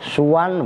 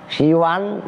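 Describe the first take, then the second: First: The first syllable has a u vowel. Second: The first syllable has an i vowel. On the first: "yang kedua suwan ... dengan dibaca dhammah sin sinnya" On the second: "yang pertama pakai sinnya di kasroh siwan"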